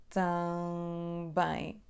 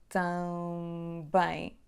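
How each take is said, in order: Both takes have the same delivery.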